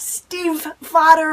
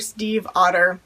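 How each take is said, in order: First: The second part starts with an F sound. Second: The second part starts with a vowel sound. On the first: The speaker calls it wrong. "It's not Steve Fodder or anything weird and crazy" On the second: The speaker calls it right. "Steve like the name, Otter like the animal"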